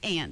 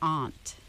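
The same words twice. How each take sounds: First: The word sounds like 'ant'. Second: The word does not sound like 'ant'. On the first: This is the speaker's usual way. "the way I say it is aunt" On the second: This is the New England way, not the speaker's. "I am not from New England, so I don't say aunt"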